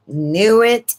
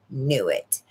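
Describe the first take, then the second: First: Knew it pushed up and louder; repeating Knew it with conviction; emphatic repeat. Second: Said in the usual way. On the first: Shown as a demonstration. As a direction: punch Knew it as a firm echo.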